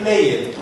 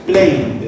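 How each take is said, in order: First: The ending is said as an extra syllable. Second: The ending is a single d sound, one syllable. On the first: The speaker calls it wrong. "you don't say play it" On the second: The speaker calls it right. "the pronunciation is only d"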